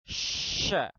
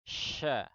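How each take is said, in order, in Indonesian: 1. Bunyi sh dikeluarkan dengan tekanan udara yang kuat. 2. Bunyi sh disebarkan dengan ringan dan alami. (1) "Kurang lebih begini ya, mengucap yang kurang nyaman tadi" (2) "Jadi cukup disebar biasa saja"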